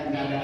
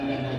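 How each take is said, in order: Both takes have the same delivery.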